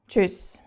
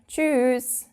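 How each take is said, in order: First: The word is said short and clipped. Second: The word is drawn out and longer.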